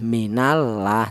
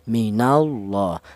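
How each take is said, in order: First: The L in Allah sounds thin and light. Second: The L in Allah sounds thick and heavy. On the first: The speaker calls it wrong. "Tidak boleh" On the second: The speaker calls it right. "ini dibaca tafkhim atau tebal"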